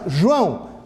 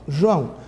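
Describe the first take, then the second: First: The name is said loudly and forcefully. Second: The name is said quietly and softly. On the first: "fala com mais força" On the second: "fala mais baixo"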